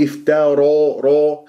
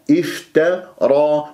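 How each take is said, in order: First: Wrong افتارى ending toward a round ro. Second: Slow افترى ending in open heavy a; unrounded ra. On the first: Teacher showing what to avoid, rounded ra in افتارى. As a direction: round the lips on the final ra of افتارى. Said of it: "هكذا تكور الشفاه في الراء". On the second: Teacher modelling correctly, unrounded افترى. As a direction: keep lips unrounded on the ra of افترى. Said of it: "هكذا تكور الشفاه". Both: Shown as a demonstration.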